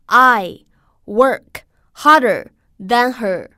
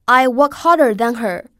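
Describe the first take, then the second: First: Word by word, loud, with pauses between; slow model reading. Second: Whole sentence joined up, loud and clear; connected model reading. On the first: Teacher models the sentence for students, slow word by word. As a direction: read it out slowly and firmly for learners to copy. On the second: Teacher models the sentence for students, in one flowing phrase. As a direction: run the words together in one firm phrase. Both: Shown as a demonstration. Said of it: "我们来读一下这个句子".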